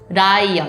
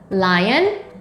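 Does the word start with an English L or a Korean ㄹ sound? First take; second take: Korean ㄹ; English L. First: It begins with the Korean ㄹ sound. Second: It begins with a clear English L sound. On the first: "in Korean" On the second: "let me just start with lion with L"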